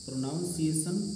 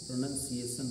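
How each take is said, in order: First: The second syllable sounds like 'naun'. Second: The second syllable sounds like 'nun'. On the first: The speaker calls it wrong. "प्रोनाउंसिएशन नहीं है" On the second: The speaker calls it right. "प्रोनंसिएशन है ये"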